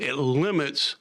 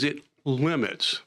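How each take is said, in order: First: It limits, leaning firmly on "limits" with a falling tune; stress on limits. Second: Said in the usual way. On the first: Shown as a demonstration. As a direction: press down hard on "limits" so the committee hears it. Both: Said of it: "and I want to stress that word".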